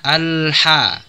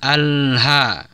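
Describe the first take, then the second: First: The h is a deep, raspy throat sound. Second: The h is a plain, light breath. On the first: The speaker calls it right. "pakai huruf ha bukan huruf ha" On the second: The speaker calls it wrong.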